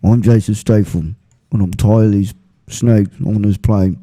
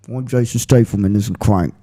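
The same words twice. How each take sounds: First: A light mock English tough guy, a bit lower; deadpan parody of a fed-up action hero; Statham on a snake plane. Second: A lightly voiced mock English tough guy; low-key movie-star growl, only hinted; Statham in Crank. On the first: Friend jokes Statham is tired of snakes on a plane, light mock accent. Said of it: "here's Jason Statham if he was on a plane with a bunch of snakes". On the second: Friend does Statham's Crank voice for the hosts, light mock English accent. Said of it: "This is Jason Statham in Crank".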